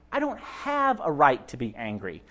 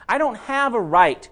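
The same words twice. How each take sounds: First: Said in the usual way. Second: Slow, with "dont" hit hard and each word spaced; stress on don't. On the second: Shown as a demonstration. Preacher driving the point home to the church, "dont" slowed and stressed. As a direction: lean on "dont" and draw the phrase out.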